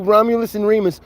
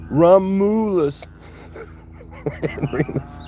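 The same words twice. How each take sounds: First: Said in the usual way. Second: Romulus stretched out slowly, then laughing into and Remus; slow drawn-out name. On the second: Shown as a demonstration. Naming the two calves, drawn out slowly with a laugh. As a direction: savour the name, slow and grand. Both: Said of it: "I'm gonna call them two".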